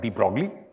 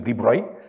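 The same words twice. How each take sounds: First: The name is pronounced the anglicized way. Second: The name is pronounced the French way. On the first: "Most of the people call it de Broglie" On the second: "in French the pronunciation is de Broglie"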